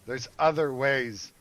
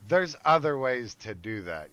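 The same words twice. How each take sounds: First: "other" drawn out slow and weighty; stress on other. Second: Said in the usual way. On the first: Real, not acted. Telling listeners revenge has smarter paths, stressing "other". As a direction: lean hard on "other", slowly.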